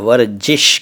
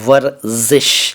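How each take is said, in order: First: The middle consonant is a 'j' sound. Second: The middle consonant is a 'z' sound. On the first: The speaker calls it wrong. "ये दोनों ही उच्चारण गलत हैं।" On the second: The speaker calls it right. "सही उच्चारण है"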